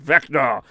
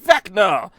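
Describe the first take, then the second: First: It is said in an angry tone. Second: It is said in a happy tone.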